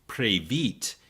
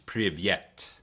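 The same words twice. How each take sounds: First: The greeting is pronounced the Ukrainian way. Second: The greeting is pronounced the Russian way. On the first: "in Ukrainian, you say" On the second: "In Russian, it's"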